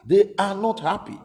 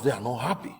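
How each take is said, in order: First: They are not happy said higher, louder, pushed hard; emphatic repeat. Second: Said in the usual way. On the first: Shown as a demonstration. Commentator repeats the Yorubas' anger, higher and louder.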